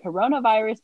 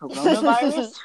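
First: Mock accusing. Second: Loud, high, questioning taunt; mocking retort. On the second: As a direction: throw it back as a mocking question. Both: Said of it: "be like".

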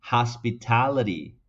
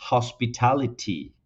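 First: Hospitality with a flapped t, has-pi-ta-li-ri; American pronunciation. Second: British hospitality with a crisp, explosive t; hospitality British-style, sharp t's; British pronunciation. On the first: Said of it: "Así lo dirían los nativos en inglés". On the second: Teacher contrasting the British hospitality, explosive t. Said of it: "tienen una T más explosiva". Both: Shown as a demonstration.

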